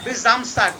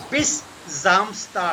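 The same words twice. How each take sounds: First: Said in the usual way. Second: Bis Samstag very slow and drawn out; careful teaching pace on Bis Samstag; slow model. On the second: Shown as a demonstration. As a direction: stretch Bis Samstag word by word. Teacher repeats it slowly for students.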